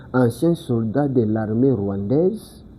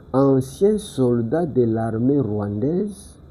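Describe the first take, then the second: No difference in how they are said.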